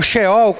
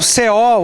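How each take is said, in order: First: "Sheol" with an initial sh sound; slow, careful "Sheol" with a sh; alternative pronunciation. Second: "Seol" with an initial s sound; slow, careful "Seol" with an s; alternative pronunciation. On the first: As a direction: say "Sheol" starting with sh, not s. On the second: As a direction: say "Seol" starting with a plain s, not sh. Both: Shown as a demonstration. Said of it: "Seol ou Sheol".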